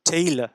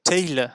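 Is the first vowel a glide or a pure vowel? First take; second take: glide; glide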